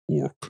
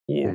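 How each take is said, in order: First: The final consonant is hard and crisp. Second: The final consonant is soft and limp. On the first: The creature sounds tough and cool. The speaker calls it right. "That's how I say it with the K" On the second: The creature sounds cheapened and weak. The speaker calls it wrong. "that's how I say it with the C"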